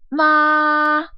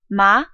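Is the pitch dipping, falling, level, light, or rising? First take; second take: level; rising. First: The pitch stays high and level throughout. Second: The pitch starts mid and rises quickly. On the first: "starts and ends high" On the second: "starts a little bit lower, but then quickly goes up"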